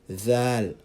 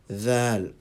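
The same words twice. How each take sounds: First: It begins with a voiced th sound. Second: It begins with a voiced th sound.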